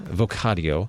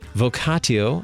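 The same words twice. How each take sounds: First: The T is pronounced as a soft sound. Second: The T is pronounced as a hard T sound. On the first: "a soft T" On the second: "a hard T"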